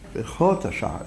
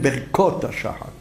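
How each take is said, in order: First: The middle consonant is a soft kh sound. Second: The middle consonant is a hard k sound. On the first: The speaker calls it right. "תמיד חף באמצע התיבה היא רפויה" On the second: The speaker calls it wrong. "לא אומרים"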